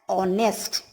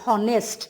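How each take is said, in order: First: The word begins with a vowel, h silent. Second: The word begins with an audible h sound. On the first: The speaker calls it right. "We pronounce it as honest" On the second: The speaker calls it wrong. "We don't say honest"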